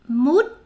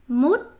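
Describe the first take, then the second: No difference in how they are said.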